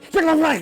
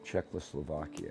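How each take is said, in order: First: It is said quickly and urgently. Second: It is said slowly and wearily. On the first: The speaker is in a rush. "Unless you're in, in a hurry" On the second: The speaker is worn out. "But if you're just tired"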